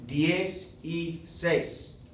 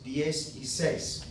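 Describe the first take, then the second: First: "Diez y seis" said very slowly as three separate words; slow breakdown "diez, y, seis"; split into three words. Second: "Diez y seis" said slowly but run more together as one word; "Diez y seis" joined up, no gaps. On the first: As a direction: unpack the number word by word. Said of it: "what I'm really saying is something like this". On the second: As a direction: glide the three words into one. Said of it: "all you're saying is ten and six". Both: Shown as a demonstration.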